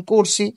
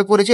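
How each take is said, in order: First: করছি contracted to two syllables, "kor-si"; colloquial pronunciation. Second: Said in the usual way. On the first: Shown as a demonstration. Teacher showing students a pronunciation change, colloquial pronunciation. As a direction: say করছি as "KOR-si" for standard korechhi. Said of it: "এটা উচ্চারণগত". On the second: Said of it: "এটা হবে".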